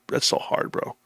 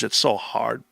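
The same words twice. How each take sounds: First: That's so hard whispered without voice. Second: Said in the usual way. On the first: Real, not acted. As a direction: breathe it out as a whisper.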